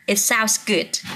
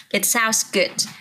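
First: Slow, careful reading of It sounds good; teacher models the phrase slowly for students. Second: Said in the usual way. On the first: Shown as a demonstration. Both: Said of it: "cái điều này nghe có vẻ hay đấy".

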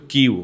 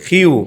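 First: "কিউ" with unaspirated k; students' old Q. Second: "হিউ" said as "khiu", puffed kh at the start; teacher's model "হিউ", strongly aspirated k; corrected Q. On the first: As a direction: say "কিউ" the Bangla way, no puff. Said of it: "তোমরা তো বলছিল কিউ নাকি?". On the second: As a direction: push air through the first sound of "হিউ". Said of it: "খর মতো". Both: Shown as a demonstration.

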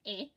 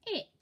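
First: "It" split into separate sounds; sounded out. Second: Said in the usual way. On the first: Shown as a demonstration. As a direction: sound out "It" bit by bit. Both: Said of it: "Let's read this word together".

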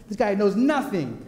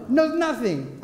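First: Laughing through a smug boast; gloating little brother laughing at his older brother. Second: "Knows nothing" higher and punched on "Knows"; cocky kid repeating "Knows nothing" with heavy stress on "Knows"; emphatic repeat. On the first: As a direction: chuckle it as the cocky kid. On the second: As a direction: hit "Knows" hard and high. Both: Retold or imitated.

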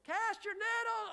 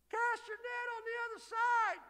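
First: High shouted call; imagined call. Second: High far-carrying shout from shore; stranger calling out. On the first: Preacher replaying the shore call in his head, high shout. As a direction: fling it high across the water. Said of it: "in my head, it went like this". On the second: Preacher voicing the man on shore calling to the fishermen, high shout. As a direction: call it out across the water, high. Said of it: "He's just a guy". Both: Retold or imitated.

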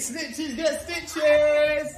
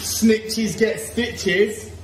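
First: High, slow singsong taunt; higher slow mock taunt. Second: Drawn-out singsong taunt; slow mock taunt. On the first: Dad repeating the taunt at the kid, high and slow. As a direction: sing it up high, teasing. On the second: Dad teasing the kids about snitching, slow mock threat. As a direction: stretch every word, teasing.

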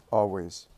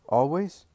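First: Falling, settled "Always." pitched low; firm answer. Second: Rising, questioning "Always?" pitched high; doubting question. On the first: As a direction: answer "Always." calmly and with certainty, dropping. Jesus answers firmly. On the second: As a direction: ask "Always?" in disbelief, voice climbing. Simon asks, doubting. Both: Acted.

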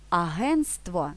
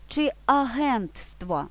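First: Агентство said slowly as the simplified form without т; slow demo of the mistaken агентство; неправильний варіант; wrong version. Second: Агентство said slowly with the full -нтств- cluster; slow, clear demo of агентство with т kept; правильний варіант; correct version. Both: Shown as a demonstration. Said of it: "Правильно, агентство".

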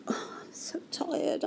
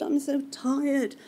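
First: Breathy whispered sigh, slow; imitating a worn-out doctor, slow and whispered; exhausted whisper. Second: Tired. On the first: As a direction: whisper it like a doctor at the end of a long shift. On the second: Retold or imitated. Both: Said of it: "She sat there going".

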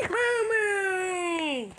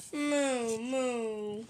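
First: High, squealed happy cow moo; long high pretend cow cheer; excited moo. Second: Drooping, softer sad moos. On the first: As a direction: gasp and moo with delight. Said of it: "You must be excited". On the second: Pretend. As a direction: moo like a mopey toy cow. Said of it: "Why you look so sad".

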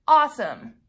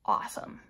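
First: Louder mock-cheerful awesome, falling; sarcastic. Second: Breathy under-the-breath awesome, dead flat; sarcastic. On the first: To her viewers, after the wrong kit, loud sarcastic cheer. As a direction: fake enthusiasm, spelled out with a sigh behind it. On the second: To her viewers, opening the wrong kit, whispered sarcasm. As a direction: mutter it in disbelief, soft and unvoiced. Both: Real, not acted.

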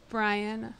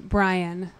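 First: Breathy lovestruck sigh; dreamy sigh. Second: Said in the usual way. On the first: Acted. Sighed repeat of crush's name.

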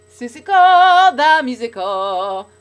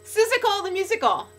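First: Sung, loud, slow, held-out notes; sung, belt it like a musical number; sung show title. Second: Spoken out high and loud; excited. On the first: Repeating the title to viewers, sung out. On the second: Thrilled about Seussical, excited. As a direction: say it as an excited exclamation. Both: Real, not acted.

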